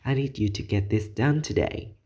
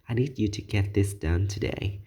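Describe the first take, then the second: First: It is said with noticeably stronger vocal intensity. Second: It is said at a plain, moderate intensity.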